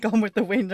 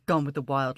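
First: "Wind" said right, short i as in win; "Gone with the Wind" fixed, "Wind" with short i and n; corrected title. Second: "Wild" said as wild with a long i and a d; wrong title. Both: Real, not acted. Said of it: "Listen to me".

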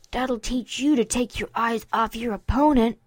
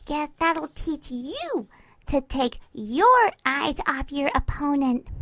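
First: Lightly voiced smug colt; a firm, self-satisfied telling-off; smug scolding. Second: Sing-song mimicking. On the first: Colt after burying his friend in snow, smug. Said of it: "Dinky mimicked him". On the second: Mare pinning her friend, mimicking him in sing-song. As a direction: parrot it back in a teasing sing-song. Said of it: "mimicked him in a sing-song voice".

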